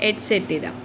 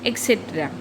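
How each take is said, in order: First: The word begins with an 'et' sound. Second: The word begins with an 'ek' sound. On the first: The speaker calls it right. "इसकी सही spelling क्या है" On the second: The speaker calls it wrong. "तो ये गलत होगा"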